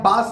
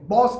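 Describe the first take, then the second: First: The vowel is an open unrounded ah. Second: The vowel is a rounded aw. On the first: The speaker calls it wrong. "अभी आप बास नहीं कहते" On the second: The speaker calls it right. "बॉस कहते हैं"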